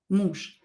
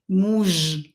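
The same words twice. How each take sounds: First: The final consonant is voiceless, like sh. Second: The final consonant is voiced, like zh. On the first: The speaker calls it right. "I pronounce it as sha" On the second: The speaker calls it wrong. "I don't pronounce it as muž"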